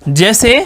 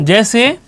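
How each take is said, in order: The two takes are said the same way.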